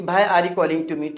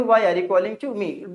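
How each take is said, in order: First: Why said as bhai with breathy bh; the common mistake, bhai are you calling; wrong bhai pronunciation. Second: Why with a clear w sound; the right way, clean w; correct why. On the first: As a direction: start Why like Hindi भाई. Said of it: "लोग इसे ज़्यादातर क्या बोलते हैं". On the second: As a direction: say Why with rounded w, not bh. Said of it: "क्या बोलेंगे". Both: Shown as a demonstration.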